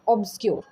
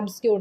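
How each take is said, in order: First: The word begins with an 'ob' sound. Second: The word begins with an 'ab' sound. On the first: The speaker calls it right. "Not एब बल्कि ऑब्सक्योर" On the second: The speaker calls it wrong. "एब्सक्योर नहीं"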